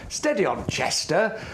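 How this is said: Chester is strongly emphasized.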